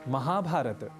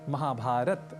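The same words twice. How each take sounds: Both takes have the same delivery.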